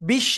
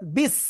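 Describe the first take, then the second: First: The syllable ends with an sh sound. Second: The syllable ends with a thin s sound. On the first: The speaker calls it wrong. "বিশ না" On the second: The speaker calls it right. "বিস চিকুন করে পড়তে হবে, স, এরকম আওয়াজ"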